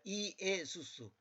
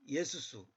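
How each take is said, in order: First: The name is said with four separate syllables. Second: The first two syllables merge into three syllables. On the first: This is the exact form of the name. "정확히는 이에수수입니다" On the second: This is the same name said quickly. "빨리 말하면 그냥 예수수"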